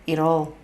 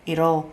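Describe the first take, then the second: Both takes have the same delivery.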